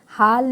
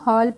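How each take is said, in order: First: The vowel is an open 'ah' sound. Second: The vowel is a rounded 'aw' sound. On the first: The speaker calls it wrong. "हाल नहीं पढ़ेंगे" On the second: The speaker calls it right. "हॉल पढ़ेंगे"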